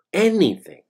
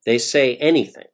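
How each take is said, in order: First: "anything" pitched higher and pushed hard; emphatic repeat. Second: Said in the usual way. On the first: Real, not acted. Narrator repeats "anything" for emphasis, with a higher push. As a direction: hit "anything" harder the second time.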